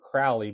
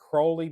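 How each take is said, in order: First: The first vowel rhymes with 'foully'. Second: The first vowel rhymes with 'holy'. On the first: The speaker calls it wrong. "his enemies will call him Crowley because they want to treat him foully" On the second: The speaker calls it right. "it's Crowley because he's holy"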